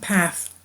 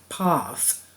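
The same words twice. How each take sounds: First: The vowel is a short, flat 'a'. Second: The vowel is a long, broad 'ah'. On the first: This is the form kept in the US. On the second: This is the form not kept in the US.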